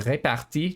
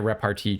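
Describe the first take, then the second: First: The word is pronounced like a French word. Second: The word is pronounced like an English word. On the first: The speaker calls it right. "from now on, I will be calling it repartie" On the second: The speaker calls it wrong. "I'm pronouncing it too much like an English word"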